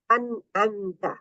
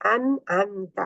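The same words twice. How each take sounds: The two takes are said the same way.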